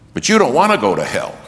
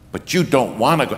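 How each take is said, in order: First: It is said more loudly. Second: It is said more quietly.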